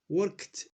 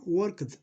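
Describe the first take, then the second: First: The ending is a short t sound. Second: The ending is an extra id syllable. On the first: The speaker calls it right. "Donc on va dire worked" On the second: The speaker calls it wrong. "Non pas worked"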